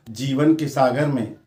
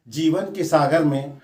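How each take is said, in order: Both takes have the same delivery.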